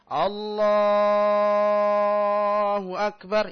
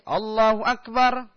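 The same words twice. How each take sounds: First: The vowels are drawn out very long. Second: The vowels are kept short and brisk.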